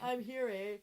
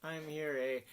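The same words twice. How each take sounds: First: Put-on echoing "I'm here, eh?" in a Canadian accent; playful Canadian "eh?". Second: Canadian "I'm here, eh?" with a tag eh; Ottawa-style Canadian accent. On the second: Real, not acted. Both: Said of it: "I slip back into my Canadian accent".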